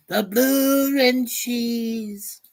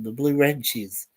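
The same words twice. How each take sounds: First: High drawn-out. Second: Said in the usual way. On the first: Pretend. Reading out a chat nickname.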